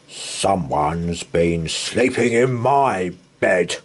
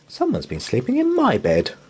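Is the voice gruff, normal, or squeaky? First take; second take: gruff; normal. First: It is said in a gruff, grunting voice. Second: It is said in a normal voice.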